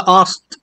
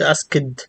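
First: The k is dropped and there is no extra syllable. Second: The ending is said as an extra syllable. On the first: The speaker calls it right. "وعايز تقول است مفيش مشكله" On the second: The speaker calls it wrong. "اهم حاجه بس ما تقولش اسكد"

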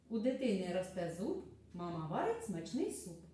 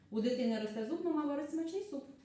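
First: It is said at a normal, unhurried pace. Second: It is said at a fast pace. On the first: "Ось послухайте скоромовку" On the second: "А тепер давайте промовимо швидше"

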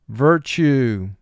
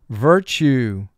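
No difference in how they are said.

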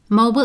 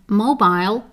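First: The word is said in an American accent. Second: The word is said in a British accent. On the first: "Mobile is American" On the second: "and mobile is British pronunciation"

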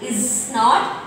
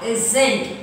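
First: Both words are said separately in full. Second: The words are run together as one shortened word.

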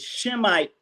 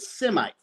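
First: The word begins with a 'sh' sound. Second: The word begins with an 's' sound. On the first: This form ties the term to the lineage of Shem. "It really would be anti-Shemitic" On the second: This is the form commonly used by others. "They pronounce it Semite"

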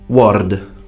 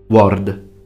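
Both takes have the same delivery.

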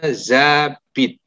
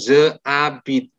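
First: The vowel of je is dropped and joined. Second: The vowel of je is kept separately. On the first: The speaker calls it right. "Bacanya j'habite" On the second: The speaker calls it wrong. "Jangan pernah ngomong je habite ya"

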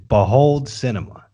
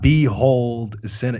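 First: The first word sounds like the ordinary word behold. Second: The first word sounds like the letter B plus hole. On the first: The speaker calls it right. "It's Behold Cinema" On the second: The speaker calls it wrong. "It's not Behold Cinema. ... is this a B-hole"

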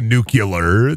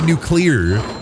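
First: It is pronounced the way farmers say it. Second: It is pronounced the way city people say it. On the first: "Farmers would say nuclear" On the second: "City slickers would say nuclear"

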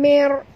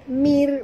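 First: The r is pronounced heavy and thick. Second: The r is pronounced light and thin. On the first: The speaker calls it wrong. "bukan mer" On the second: The speaker calls it right. "Kena baca tipis"

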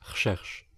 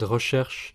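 First: A vowel is dropped, shortening the word. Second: The word is pronounced fully with every vowel.

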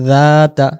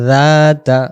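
No difference in how they are said.

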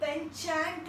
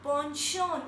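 First: The word begins with a 'pen' sound. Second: The word begins with a 'pon' sound. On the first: The speaker calls it wrong. "Isko penchant nahi bolenge" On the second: The speaker calls it right. "We pronounce it like ponchon"

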